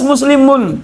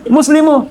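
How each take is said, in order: First: The word ends with a final n sound. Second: The word ends without a final n sound. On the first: The speaker calls it right. "harus muslimun" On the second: The speaker calls it wrong. "jangan baca muslimu"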